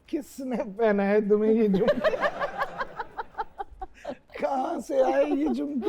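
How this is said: It is said while laughing.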